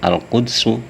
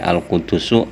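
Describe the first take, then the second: First: No vowel follows the d sound. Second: A u-vowel follows the d sound. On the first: "wa iskanisani lan kasukun huruf kang kaping pindho" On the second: "kelawan kandhoma huruf lorone"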